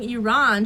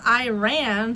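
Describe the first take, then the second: First: The first syllable does not sound like 'eye'. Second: The first syllable sounds like 'eye', as 'I ran'. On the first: "I'm used to saying Iran" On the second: "Iran sounds so weird. It's like, I ran"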